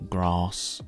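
The A vowel is long. This is how people in the south of England say it. "people maybe in the south of England are more likely to say"

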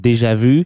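It is said with an English accent.

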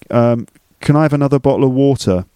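A slight London accent with some T's dropped. "I've got a slight London accent... I drop my T's sometimes. So I might say"

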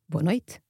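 The T in noite sounds like t. This is the European Portuguese pronunciation. "I say boa noite with a soft T sound"

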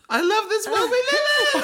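It is said rising into a falsetto.

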